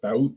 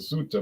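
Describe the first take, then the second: First: The name is said the local Spanish way. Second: The name is said the English way. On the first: This is how the locals say it. "they pronounced it Thauta" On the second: This is how an English speaker would say it. "I would have pronounced it Suta, but I'm English"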